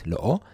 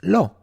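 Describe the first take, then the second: First: Two separate vowels are said, lo then o. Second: The vowels merge into one syllable, lo. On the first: The speaker calls it wrong. "instead of saying lo o" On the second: The speaker calls it right. "it becomes lo"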